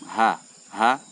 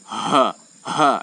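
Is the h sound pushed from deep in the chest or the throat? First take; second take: throat; chest. First: The h comes lightly from the throat. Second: The h is pushed from deep in the chest. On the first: The speaker calls it right. "Cukup ha ha, dia tempatnya di tenggorokan, tidak sampai di dada" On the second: The speaker calls it wrong. "jangan terlalu dalam sampai uh, bukan di tenggorokan lagi, bagian dada. Ha ha, itu salah ya"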